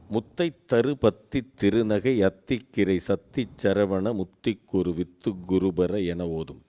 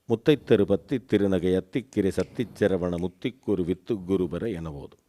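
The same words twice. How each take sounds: First: It is recited slowly. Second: It is recited at medium speed.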